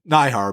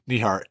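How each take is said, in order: First: The first syllable sounds like 'nye'. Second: The first syllable does not sound like 'nye'. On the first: The speaker calls it wrong. "I've always thought saw the N I like Nye" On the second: The speaker calls it right. "but no"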